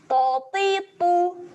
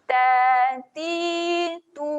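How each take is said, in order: First: Each vowel is said short and clipped. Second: Each vowel is held for two beats. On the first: "Bacakan pendek" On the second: "Panjangkan dua harakat"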